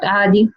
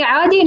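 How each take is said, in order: First: عادي with a low falling tune; عادي settled and falling. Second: عادي lifted with a high rising tune; عادي with an upward lilt. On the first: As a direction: drop the pitch at the end of عادي. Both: Shown as a demonstration.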